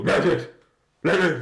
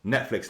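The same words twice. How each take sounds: First: Loud, higher garbled nonsense over the word; jamming the voice command with noisy gibberish; garbled blurting. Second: Said in the usual way. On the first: Shown as a demonstration. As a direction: blurt a mangled "Netflix" to put someone off. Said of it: "just has to put them off". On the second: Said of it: "at the same time you go".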